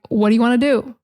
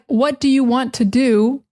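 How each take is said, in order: First: The words run together and are linked. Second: Each word is said separately and clearly. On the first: "actually sounds like" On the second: "a phrase like"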